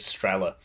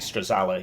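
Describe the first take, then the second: First: The name is said with two syllables. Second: The name is said with three syllables. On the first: "the pronunciation of this is Strela" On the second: "I like to say Strazala"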